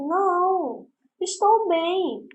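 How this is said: There is a pause after the first word. The person is fine. "Aí ela vai dizer assim"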